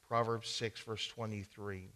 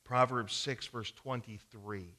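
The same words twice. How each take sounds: The two takes are said the same way.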